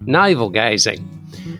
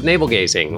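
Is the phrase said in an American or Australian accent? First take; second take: Australian; American. First: It is said in a put-on Australian accent. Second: It is said in a plain American accent.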